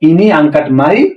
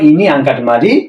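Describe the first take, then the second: First: The last word is shortened to a single syllable. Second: The last word is said with both full syllables. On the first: This is the casual regional way of speaking. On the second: This is the standard way of speaking.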